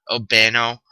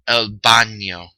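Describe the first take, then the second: First: The middle consonant is a plain n sound. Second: The middle consonant is an ny sound. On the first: The speaker calls it wrong. "It's not el bano" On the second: The speaker calls it right. "this little squiggly mark over the N makes that N sound"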